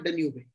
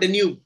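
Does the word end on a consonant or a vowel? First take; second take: vowel; consonant. First: The word ends with an extra vowel sound. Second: The word ends on the final consonant. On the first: The speaker calls it wrong. "क्या डेन्यूबे बोल रहे" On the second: The speaker calls it right.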